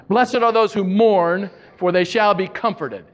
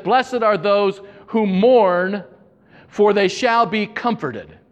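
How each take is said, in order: First: Said in the usual way. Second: Slow, solemn reading. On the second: Acted. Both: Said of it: "Jesus said".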